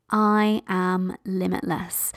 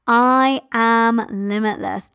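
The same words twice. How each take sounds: First: Very slow, softer gentle affirmation; gentle near-whisper. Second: Slow drawn-out bold affirmation; bold lioness roar. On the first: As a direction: let it fade slowly as if to yourself. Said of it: "you can even whisper to yourself". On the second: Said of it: "Do that limitless mother lioness roar". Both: Shown as a demonstration.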